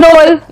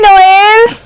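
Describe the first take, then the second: First: The name is clipped into one short syllable. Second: The name is drawn out on the final syllable. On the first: This is how everyone else says the name. "మిగతా వాళ్ళు నోల్ అంటారు" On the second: This is an affectionate way of saying the name. "నోయల్ ఏల్ దగ్గర లాగుతున్నా"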